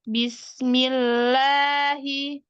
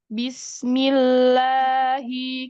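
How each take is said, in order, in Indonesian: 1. Nada naik ke atas menjelang akhir. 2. Nada tetap datar dan suara terdengar ke depan. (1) "bukan ke atas, bukan Bismillahi" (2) "tapi Bismillahi ke depan aja, nggak perlu naik"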